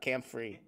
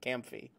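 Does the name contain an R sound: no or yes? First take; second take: yes; no. First: The name is said with an R sound. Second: The name is said without an R sound. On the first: The speaker calls it wrong. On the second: The speaker calls it right. "There's no R"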